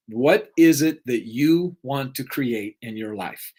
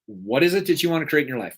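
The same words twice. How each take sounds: First: Slowly, leaning on "is" in "what is it"; slow emphatic question. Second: Brisk restatement of the question; quicker repeat. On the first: To the audience, slowly stressing "is" in the question. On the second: To the audience, quickly repeating the question. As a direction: rattle off the question a second time, faster. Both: Shown as a demonstration.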